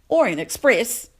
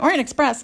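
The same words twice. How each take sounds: First: It is said with a put-on British accent. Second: It is said in the speaker's plain accent.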